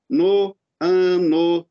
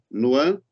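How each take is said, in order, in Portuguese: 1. As duas vogais que se encontram são pronunciadas como sílabas separadas. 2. As duas vogais que se encontram são unidas em uma única sílaba. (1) "tem gente que vai falar assim" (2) "Mas, na verdade, é no ano"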